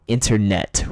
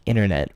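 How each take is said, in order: First: The middle T is pronounced hard and crisp. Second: The middle T is reduced and run together. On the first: "people in England pronounce internet ... they go hard on that T" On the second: "people in America say internet like internet ... They kind of crump it together"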